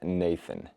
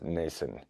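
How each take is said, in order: First: The middle consonant is a 'th' sound. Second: The middle consonant is an 's' sound. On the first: The speaker calls it right. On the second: The speaker calls it wrong.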